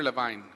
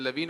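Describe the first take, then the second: First: Levine said as luh-VINE; second option, Levine rhyming with "fine"; pronunciation query. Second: Levine said as luh-VEEN; first option, Levine rhyming with "seen"; pronunciation query. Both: Shown as a demonstration. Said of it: "is it Levine or Levine".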